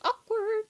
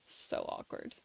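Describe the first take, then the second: First: Squeaky high Awkward, drawn out; mock awkward. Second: Breathy whispered so awkward. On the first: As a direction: pitch Awkward up high like a cringe. Repeating the word for comic effect. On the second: Pretend. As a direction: whisper it like a cringe. Laughing at an awkward moment.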